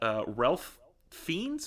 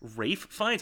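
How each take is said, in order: First: The first name is said with an L sound. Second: The first name is said without an L sound. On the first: The speaker calls it wrong. "I super mispronounced his name" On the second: The speaker calls it right. "It does say Ralph, but it's pronounced Rafe"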